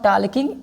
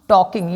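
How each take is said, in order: First: The L sound is pronounced in the word. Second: The L sound is left silent in the word. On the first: The speaker calls it wrong. "This is not टालकिंग" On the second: The speaker calls it right. "It is टॉकिंग, यल silent होता है"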